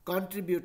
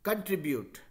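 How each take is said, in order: First: The first syllable has a full 'kon' vowel. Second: The first syllable has a weak 'kun' vowel. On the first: The speaker calls it wrong. "कंट्रीब्यूट नहीं है" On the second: The speaker calls it right. "C O N कॉन नहीं होके कन होता है"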